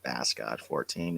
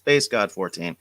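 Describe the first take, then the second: First: Bass has the vowel heard in 'mass'. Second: Bass has the vowel heard in 'face'. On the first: The speaker calls it wrong. "not Bass God fourteen" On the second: The speaker calls it right. "like a bass guitar"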